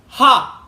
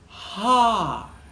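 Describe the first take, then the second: First: The sound starts abruptly with a hard attack. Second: The sound starts gently with airy breath. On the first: "a hard onset" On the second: "a soft"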